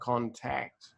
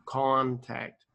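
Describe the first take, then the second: First: The stress is on the second syllable. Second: The stress is on the first syllable. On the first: The speaker calls it wrong. "But when you said it was like contact" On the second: The speaker calls it right. "the first syllable's big, con, and the second syllable, tact, is small"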